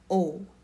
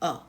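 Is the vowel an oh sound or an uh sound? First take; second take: oh; uh. First: The vowel is a rounded oh sound. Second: The vowel is an unrounded uh sound. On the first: The speaker calls it wrong. "Not like a o. It's not a o really" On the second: The speaker calls it right. "it's really more of a uh"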